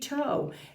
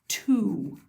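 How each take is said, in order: First: The word ends with a long 'oh' vowel. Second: The word ends with a long 'oo' vowel. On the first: The speaker calls it wrong. "if I did an O sound, t, O, it would be toe" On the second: The speaker calls it right. "this says an oo sound"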